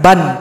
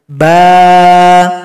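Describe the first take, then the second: First: The word ends with an n sound. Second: The word ends in a long vowel, no n. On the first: "kalau dia fathatain, ba misalkan ban" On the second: "cara berhentinya hilang satu, panjang dua ketukan"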